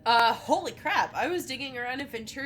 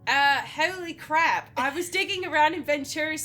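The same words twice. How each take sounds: First: It is read without an Australian accent. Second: It is read in an Australian accent. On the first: The speaker calls it wrong. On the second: The speaker calls it right.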